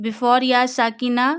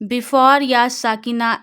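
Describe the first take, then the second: The two takes are said the same way.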